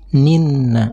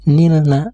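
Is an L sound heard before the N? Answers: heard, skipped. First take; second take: skipped; heard. First: The L merges into a doubled consonant. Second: An L sound is heard before the consonant. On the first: The speaker calls it right. "harus dilewati membacanya" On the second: The speaker calls it wrong. "tidak boleh dibaca nilna"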